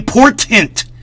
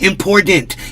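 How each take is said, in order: First: The middle t is said as a crisp t. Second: The middle t sounds soft, like a d. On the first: The speaker calls it right. "say it right" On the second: The speaker calls it wrong. "won't say important correctly"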